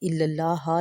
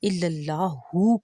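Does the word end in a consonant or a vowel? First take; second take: consonant; vowel. First: The word ends on the 'h' consonant. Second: The word ends with a final 'u' vowel. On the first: The speaker calls it wrong. "इल्लल्लाह लफ्ज़ भी ठीक नहीं है" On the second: The speaker calls it right. "इल्लल्लाहु कहना चाहिए"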